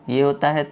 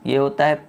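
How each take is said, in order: Both takes have the same delivery.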